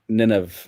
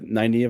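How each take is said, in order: First: The name is said like Nineveh. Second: The name is said the Nynaeve way. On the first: The speaker calls it wrong. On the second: The speaker calls it right.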